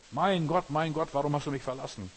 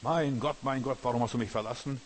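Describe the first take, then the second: First: Loud, much higher cry of abandonment; desperate outcry. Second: Raised, anguished plea to God; anguished cry. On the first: Jesus on the cross calling out to God, a loud desperate cry. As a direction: wail it up to heaven, forsaken. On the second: Jesus on the cross crying out to God, raised and anguished. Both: Acted.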